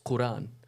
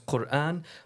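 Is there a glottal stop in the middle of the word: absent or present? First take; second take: absent; present. First: The word flows without a glottal stop. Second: A glottal stop breaks the middle of the word. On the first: "Without that um, that that stopping of the Quran" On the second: "is read as Quran"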